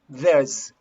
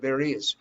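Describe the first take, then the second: First: The two words merge into one short syllable. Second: Both words are said in full, separately.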